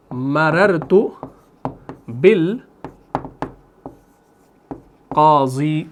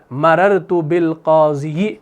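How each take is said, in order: First: مررت بالقاضی read slowly, ending bilkazi with a long rising drawl; Arabic example drawn out. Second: مررت بالقاضی read slowly with the final ya sounded, bilqaziji; spelled-out reading. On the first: Teacher slowly voicing the Arabic example for students, drawn-out Arabic reading. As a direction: stretch out بالقاضی syllable by syllable, ending without the ya. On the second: Teacher showing the form Arabs don't pronounce, slow spelled-out reading. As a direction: sound out the ending ی as a full extra syllable.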